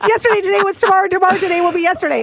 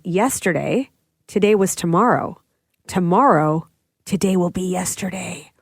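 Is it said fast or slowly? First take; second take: fast; slowly. First: It is said at a faster pace. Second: It is said at a slower pace.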